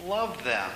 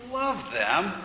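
First: Calm, simple instruction with a falling end; calm command. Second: Disbelieving question, high then dipping and rising; incredulous echo. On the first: A narrator's reading. God telling the man to love opponents, calmly. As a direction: say it softly settled, as a gentle order. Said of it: "in that same calm voice". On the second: Acted. Man questioning God's command to love, incredulous. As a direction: throw it back as a question.

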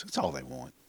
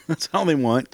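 First: Much softer, half under the breath; a near-silent mock sigh of a line; quiet aside. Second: Laughing through the repeat; amused repeat with a laugh in it. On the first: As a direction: drop to a muttered aside. Mocking the kids' attention-seeking. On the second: Acted. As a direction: chuckle it out, amused at the kids. Same words repeated with a laugh.

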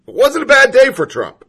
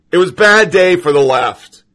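First: "wasn't" pitched high, then falling; stress on wasn't. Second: Said in the usual way. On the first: Acted. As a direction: lift "wasn't" high and let it drop. Contrasting bad day claims.

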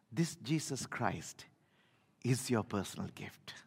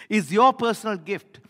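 First: Breathy hushed whisper, much softer. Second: Repeated louder and higher; now proclaim it out loud; loud declaration. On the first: Preacher whispering the good news to the congregation. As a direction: lean in and whisper it to the church. Sermon climax, hushed aside. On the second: Preacher booming the good news back to the church. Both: Real, not acted.

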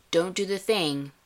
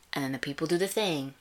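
First: Higher, louder warning as Steve; mock Steve warning. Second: Said in the usual way. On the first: Host imitating Steve warning his team, mock stern. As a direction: wag a finger at the team, Steve-style. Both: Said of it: "of Steve saying".

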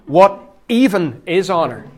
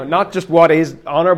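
First: "even" pushed up and loud; stress on even. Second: Said in the usual way. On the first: Shown as a demonstration. Preacher to church, stressing "even". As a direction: lean hard on "even" in "What even is honour?". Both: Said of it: "get the even in there to emphasise it".

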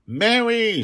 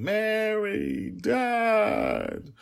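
First: High, loud cry of the name; child's shout. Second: Very high, drawn-out wail; crying child. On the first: Child calls out to her nanny who was pierced, shouting. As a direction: shout it out in sudden alarm, pitched high. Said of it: "she shouted". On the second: Child cries for her lost nanny and her father, wailing. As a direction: wail the names like a small child in tears. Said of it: "Dragon Little was crying". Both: Acted.

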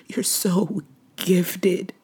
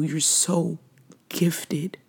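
First: Slow whisper. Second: Whispered. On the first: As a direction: draw it out in a whisper. Repeated, slower whispered praise. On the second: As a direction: whisper it, barely voiced. Whispered praise to late brother. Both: Real, not acted.

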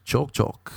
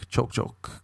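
First: Said in the usual way. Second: Choke, choke, susurrado sin voz; breathy choking whisper. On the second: Shown as a demonstration. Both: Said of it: "all you do is choke".

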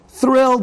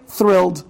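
First: Thrilled said much higher and louder. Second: Said in the usual way. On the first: Shown as a demonstration. Rabbi repeating the word to show Yaakov's joy, excited. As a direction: burst out with Thrilled, overjoyed.

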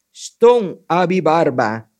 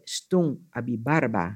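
First: Loud, drawn-out magic words; slow incantation. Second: Said in the usual way. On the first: A narrator's reading. Anansi naming the bearded magic stone, slow incantation. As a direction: intone each part slowly and loudly.

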